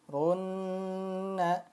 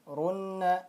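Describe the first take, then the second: First: The doubled n is held for two beats. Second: The doubled n is held for one beat. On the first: The speaker calls it right. "Seperti ini" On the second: The speaker calls it wrong. "kurang tepat kalau kita bacanya satu ketukan saja"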